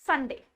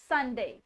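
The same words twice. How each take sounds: No difference in how they are said.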